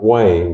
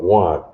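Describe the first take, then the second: First: The vowel is pronounced as 'ay'. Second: The vowel is pronounced as 'ah'. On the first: The speaker calls it wrong. "Not Wayne" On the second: The speaker calls it right. "because all our vowel sounds is ah"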